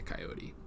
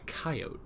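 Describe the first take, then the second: First: It is said the general US way. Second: It is said the Southern US way. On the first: "I say" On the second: "as some people in the South say"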